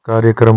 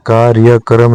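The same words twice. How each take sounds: First: कार्यक्रम compact, "kaarya-kram"; correct form. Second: कार्यक्रम drawn as "kaarya-karam"; incorrect form. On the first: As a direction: join kr in कार्यक्रम. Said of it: "होता है". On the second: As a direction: split the kr in कार्यक्रम. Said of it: "नहीं होता". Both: Shown as a demonstration.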